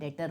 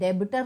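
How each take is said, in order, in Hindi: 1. बीच में b की ध्वनि नहीं बोली जाती है। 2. बीच में b की ध्वनि बोली जाती है। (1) "डेटर होता है" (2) "बी साइलेंट होता है, तो डेबिटर नहीं होता"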